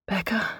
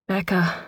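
First: Rising, uncertain call of the name; tentative rising Becca?; questioning call. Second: Falling, settled call of the name; name spoken with a final fall; firm call. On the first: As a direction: ask her name, unsure she is still there. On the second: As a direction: say Becca. flatly, getting her attention. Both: Acted. Mother calls to her daughter.

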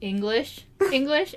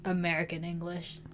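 First: ENGLISH pitched up high, set above American. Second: AMERICAN ENGLISH dropped down low and soft; low-pitched American English. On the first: Host contrasting English with American English, pitched up high. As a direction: say ENGLISH up high, as the superior kind. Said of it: "when I said English English, it was up high". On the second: Host downgrading their own American English, said down low. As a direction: sink AMERICAN ENGLISH low, as the lesser kind. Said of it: "down low". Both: Shown as a demonstration.

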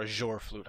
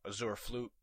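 First: Azure said "uh-ZHOR", with a zh sound; alternative pronunciation. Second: Azure said "uh-ZOOR", with a z sound; alternative pronunciation. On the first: Podcaster offering another way to say it, Azure as "uh-ZHOR". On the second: Podcaster guessing at an item's name, Azure as "uh-ZOOR". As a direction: say Azure with a plain z and an "oor" ending. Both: Shown as a demonstration. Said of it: "however you pronounce it".

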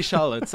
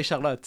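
First: "Charlotte" the English way, SHAR-lut; anglicised "Charlotte", stress on the first syllable; English pronunciation. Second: "Charlotte" the French way, shar-LOT, final vowel open; French "Charlotte", stress on the end; French pronunciation. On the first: Host showing how she says her own name in English. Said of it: "I say my own name with an English accent". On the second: Host contrasting the French way of saying her name. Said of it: "I don't say Charlotte". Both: Shown as a demonstration.

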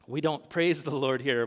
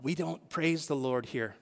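First: Said in the usual way. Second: Slow, lightly voiced reproach; a hint of the stern neighbour in the pew; lady's scolding. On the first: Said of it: "that's exactly how we are". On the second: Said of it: "and she said".

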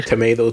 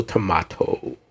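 First: Tomato said as tuh-MAY-doh; tomato, middle syllable "MAY". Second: Tomato said as tuh-MAH-toh; tomato, middle syllable "MAH". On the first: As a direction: say tomato with a long a, as in "day". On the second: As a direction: say tomato with an open ah, as in "spa". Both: Shown as a demonstration. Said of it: "minor points of pronunciation aside".

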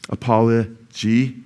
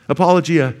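First: Apology drawn out slowly; slow demo. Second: Apologia with an added uh at the end; pronunciation demo. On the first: Preacher slowly modelling apology for his congregation, slow. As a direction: stretch apology out slowly for the crowd. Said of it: "Very easy, apology". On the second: Preacher teaching the congregation to say apologia, clear demo. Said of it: "Just say uh at the end". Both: Shown as a demonstration.

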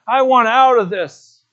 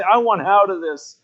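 First: Retold tearful cry, louder and higher; weeping plea, louder. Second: Retold plea, only a touch of tears; mild weeping plea. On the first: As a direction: repeat the plea louder and higher, breaking into tears. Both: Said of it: "he started to weep and say".

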